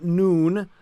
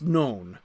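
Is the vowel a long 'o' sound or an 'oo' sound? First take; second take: oo; long o. First: The vowel sounds like the oo in moose. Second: The vowel is a long o sound. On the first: The speaker calls it wrong. "That's not noon" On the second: The speaker calls it right. "that's known"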